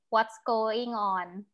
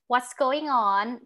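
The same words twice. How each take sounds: First: The pitch stays level throughout. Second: The pitch moves up and down. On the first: This is how Thai speakers say it. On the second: This is the English way of speaking.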